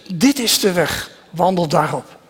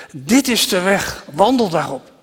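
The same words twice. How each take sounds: The two takes are said the same way.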